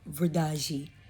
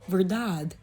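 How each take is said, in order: First: It is said with a native Portuguese accent. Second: It is said with a Spanish-like accent. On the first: A local's correction of the word. The speaker calls it right. "they're gonna be like, what? No, verdade" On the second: A learner's attempt that locals would not understand. The speaker calls it wrong. "you're not gonna go to ... Portugal or Brazil and be like, oh yeah, verdade"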